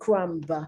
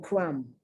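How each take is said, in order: First: A B sound is heard at the end. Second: No B sound is heard at the end. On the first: The speaker calls it wrong. "I'm not saying crumb" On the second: The speaker calls it right. "Notice I'm not pronouncing the B"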